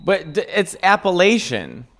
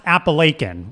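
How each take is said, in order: First: Appalachian said with the third syllable as "latch", rising; Appalachian said the Chicago way, "a-pa-latch-un"; Appalachian with a "latch" sound. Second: Appalachian said with a long "lay" in the third syllable; Appalachian said the Pennsylvania way, "a-pa-lay-kun"; Appalachian with a "lay" sound. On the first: Host corrects his friend's pronunciation. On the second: Friend tells the host the proper pronunciation. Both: Shown as a demonstration. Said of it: "It's pronounced Appalachian".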